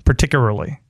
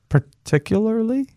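First: The L and R sounds trade places. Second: The L and R sounds are in place. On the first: The speaker calls it wrong. "You're switching the L and the R" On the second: The speaker calls it right. "there you go"

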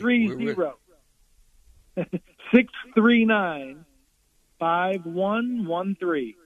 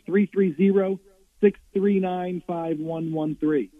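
First: The number is said slowly. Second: The number is said at normal speed.

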